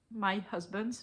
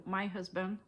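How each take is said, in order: First: "my husband" said as husbands with a final s; the slip "husbands", with the plural s tacked on. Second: "my husband" said cleanly as singular husband, with no s; corrected singular. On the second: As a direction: fix it to "husband", with no final s. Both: Real, not acted. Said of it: "I have one only".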